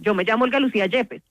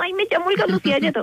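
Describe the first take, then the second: First: It is said in a firm, steady tone. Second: It is said in a weak, unsure tone.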